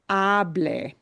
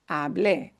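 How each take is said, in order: First: The stress is on the first syllable. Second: The stress is on the last syllable. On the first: It is an order telling someone to talk. The speaker calls it wrong. "punching the ah sound" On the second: The speaker talked, and the action is over. The speaker calls it right. "has to be pronounced with a punch at the end"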